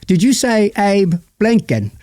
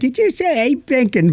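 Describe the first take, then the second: First: It is said in a different, non-cheeky accent. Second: It is said in a churlish, cheeky monkey voice.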